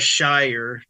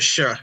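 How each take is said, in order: First: It is said as a full 'shire'. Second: It is said as a short 'sh'. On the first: The speaker calls it right. "it was pronounced the Shire" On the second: The speaker calls it wrong. "not the sh"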